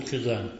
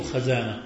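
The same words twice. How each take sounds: First: خزانة said with an i after خ, khizana; correct-vowel demo. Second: خزانة said with an a after خ, khazana; wrong-vowel demo. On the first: Teacher gives students the correct vowel, khizana for خزانة. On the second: Teacher warns students off a wrong vowel, khazana in خزانة. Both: Shown as a demonstration. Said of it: "لا تقل خزانة، قل خزانة".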